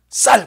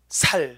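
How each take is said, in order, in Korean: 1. 첫 자음은 된소리, 긴장된 s입니다. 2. 첫 자음은 예사소리, 힘을 뺀 s입니다. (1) "경남은요 쌀 바로 놉니다" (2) "경북 사람은 쌀 못합디다. 살, 살 이라더라고"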